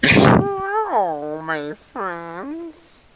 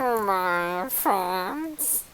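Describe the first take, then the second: First: Creepy rat voice. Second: Slow, soft, creepy drawn-out greeting; creepy rat voice. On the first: Creepy greeting as rat skull. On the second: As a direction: draw it out like a sly rat. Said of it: "He does that better than I do". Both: Acted.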